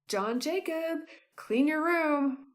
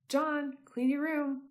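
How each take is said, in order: First: It is said with more anger. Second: It is said with little anger.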